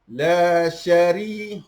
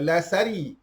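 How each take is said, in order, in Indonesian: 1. Konsonannya adalah bunyi sh. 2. Konsonannya adalah bunyi s biasa. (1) "huruf shin" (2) "bukan la sari"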